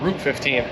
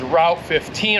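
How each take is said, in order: First: It is said in a British accent. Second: It is said in an American accent.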